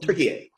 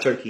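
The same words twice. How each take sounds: First: Turkey said as "tur-kee-yay"; Turkish-style name of Turkey. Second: Said in the usual way. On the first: Shown as a demonstration. Telling the host what it's called now, Turkish pronunciation. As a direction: give Turkey three syllables, ending on "-ay". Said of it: "It's called Turkey". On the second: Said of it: "it's not Turkey anymore".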